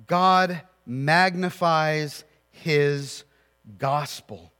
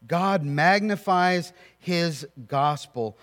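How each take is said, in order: First: God drawn out, very slow and weighty; stress on God. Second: Slow, with "magnifies" carrying the weight; stress on magnifies. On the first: Preacher to congregation, stress on God, very slow. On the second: Preacher repeating the point, stress on magnifies, slow. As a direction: press on "magnifies" and keep the line steady. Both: Shown as a demonstration.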